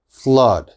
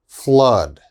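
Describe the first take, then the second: No difference in how they are said.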